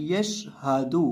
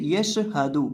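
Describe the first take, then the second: First: यश हादू with sh held still, no bounce; still sheen. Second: यश हादू with a small vowel bounced after sh; wrong bounced sheen. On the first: Teacher modelling the right reading, still sheen in यश हादू. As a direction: keep शीन unbounced before हादू in यश हादू. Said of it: "इस लफ्ज़ को पढ़ना है". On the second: Teacher warning against the mistake, bounced sheen in यश हादू. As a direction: shake the sh loose in यश हादू, like "yasha-hadu". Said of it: "शीन को हिलाकर नहीं पढ़ना". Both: Shown as a demonstration.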